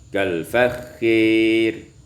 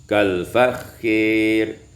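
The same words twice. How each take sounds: The two takes are said the same way.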